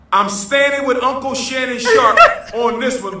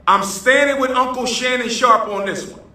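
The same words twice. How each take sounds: First: Giggling during the repeat; laughing. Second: Said in the usual way. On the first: Real, not acted. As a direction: laugh breaks in mid-line. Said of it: "repeat with laugh".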